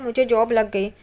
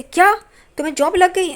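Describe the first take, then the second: First: Said in the usual way. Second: Amazed question. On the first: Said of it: "तो वो कहता है". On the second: Retold or imitated. Sister hearing her brother got a job, surprised. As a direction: voice jumps up in disbelief. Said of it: "सब लोग हैरान हो जाते हैं".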